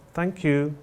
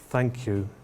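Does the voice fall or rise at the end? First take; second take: rises; falls. First: The voice rises at the end. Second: The voice falls at the end. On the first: The thanks are routine. "the routine thank you" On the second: The thanks are sincere. "the genuine thank you is a falling tone"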